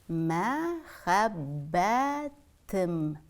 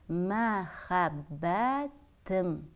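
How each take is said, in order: No difference in how they are said.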